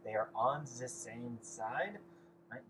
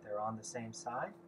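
First: Slow, hammed-up bad German accent; deliberately drawn-out mock German accent; a joking bad German accent for the students. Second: Said in the usual way. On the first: Shown as a demonstration. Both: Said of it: "In a bad German accent".

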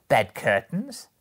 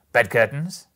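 First: Loud, high-rising amused repeat; amused echo. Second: Loud, rising disbelief; surprised question. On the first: A narrator's reading. Woman laughingly echoes Joe's question, amused. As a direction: echo it with a laugh just before, lifting high. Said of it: "returning and laughing". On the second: Acted. Joe questions what the bundle holds, surprised. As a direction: ask it sharply, lifting at the end.

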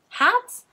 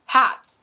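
First: Sharp high rising "Hats?"; puzzled question. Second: "Hats," stated firmly and louder, falling; affirmative statement. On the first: Dickory, puzzled by the hats, asks Garson, high rising question. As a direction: ask "Hats?" in disbelief, pitch leaping up. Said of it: "Realizing it was a question". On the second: Garson confirms to Dickory that they're hats, firm and loud. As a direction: confirm "Hats," as plain fact. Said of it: "she said affirmatively". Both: A narrator's reading.

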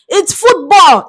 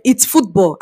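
First: FOOTBALL pitched high and pushed; emphatic insistence. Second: Said in the usual way. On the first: Real, not acted. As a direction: insist hard on the word FOOTBALL. Emphatic repeat to Americans.

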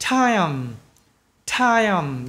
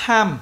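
First: "time" with a long A-to-Y glide closing on M; correct full glide. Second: "time" cut short as "tham", no Y glide; wrong, glide dropped. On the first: Teacher showing the right way, full glide in "time". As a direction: stretch the whole diphthong in "time". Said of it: "Còn khi người ta nói đúng này". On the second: Teacher showing the wrong way, glideless "time". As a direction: clip the diphthong in "time" to a short plain A. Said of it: "Khi người ta nói sai này". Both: Shown as a demonstration.

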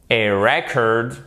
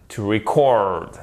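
First: Slow model "record" as REC-ord; stress on first syllable. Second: Slow model "record" as re-CORD; stress on second syllable. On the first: Teacher recapping noun against verb, first-syllable stress on "record". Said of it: "l'accent tonique est sur la première syllabe". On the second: Teacher recapping verb against noun, second-syllable stress on "record". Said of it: "l'accent tonique est sur la seconde syllabe". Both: Shown as a demonstration.

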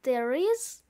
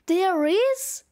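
First: Said in the usual way. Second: Louder, surprised shout, rising; raised-voice query; shouted question. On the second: A narrator's reading. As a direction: call out the question in loud disbelief. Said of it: "shouts one of the Santas".

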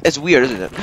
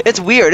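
First: Said in the usual way. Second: Weird louder and higher, falling; stress on weird. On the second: Real, not acted. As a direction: land hard on weird. Repeating about creepy doll.

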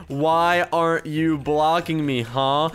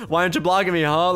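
First: Slow, word-by-word delivery; dictating while typing. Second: Said in the usual way. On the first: Real, not acted. Gamer typing a challenge to the hater, slow dictation. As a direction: space out each word as if typing it.

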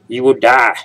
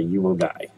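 First: Loud, raised-pitch mock doom; mock warning. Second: Said in the usual way. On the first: Gamer warning viewers about the depth gauge, mock-dramatic. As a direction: belt it out as a joking warning. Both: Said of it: "no, but seriously".

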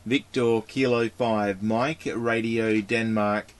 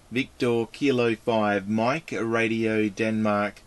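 No difference in how they are said.

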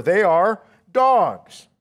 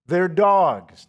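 First: They are dogs, every word slow and leaned on; slow emphasis. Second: Said in the usual way. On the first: Shown as a demonstration. Scene: to the congregation, driving home the point, slow and weighty. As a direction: lay each word down slowly. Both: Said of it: "that's important to remember".

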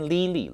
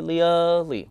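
First: Lily flattened to "lee-lee"; Lily with no "uh" sound; schwa lost. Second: Lily as li-uh-lee, stretched then natural; Lily gliding through "uh"; correct pronunciation. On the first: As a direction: say Lily with pure "ee" twice. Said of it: "所以就变Lily了". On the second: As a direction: say Lily with a schwa in the first syllable. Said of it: "它应该是Lily". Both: Shown as a demonstration.

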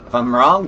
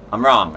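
First: Wrong rising, questioning; stress on wrong. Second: Wrong said flat and falling, settled. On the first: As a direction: lift the word wrong up at the end. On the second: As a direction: drop the word wrong down at the end. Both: Shown as a demonstration.

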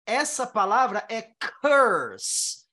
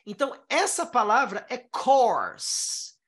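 First: "curse" slow, a short neutral vowel before the r; curse pronounced clearly. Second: "course" slow, a long open vowel and the r; course pronounced clearly. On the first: Teacher contrasting "curse" for students. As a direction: say "curse" with a flat er sound. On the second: Teacher contrasting "course" for students. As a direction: draw out "course" with a rounded o. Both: Shown as a demonstration. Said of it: "Eu mudei o O pra an".

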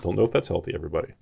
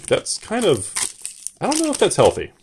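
First: Said in the usual way. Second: Higher, light quizzical inner voice; mock concern. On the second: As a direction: playfully imitate her own puzzled reaction. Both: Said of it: "I was like".

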